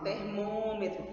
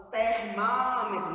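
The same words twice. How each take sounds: First: "termômetro" with a closed ô in "mô"; closed vowel. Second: "termômetro" slow and louder, with open ó; wrong open vowel. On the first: Teacher showing what we do say, "termômetro" with closed ô. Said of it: "nós falamos". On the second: Teacher showing what we don't say, "termômetro" with open ó. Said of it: "nós não falamos". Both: Shown as a demonstration.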